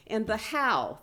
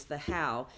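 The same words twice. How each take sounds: First: How said higher and louder, falling; stress on how. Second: How dropped lower and quieter, falling; quiet recap of how; softer repeat of how. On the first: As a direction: lean on the word how. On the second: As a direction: echo the how back down. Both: Shown as a demonstration. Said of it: "the theme of this entire conference".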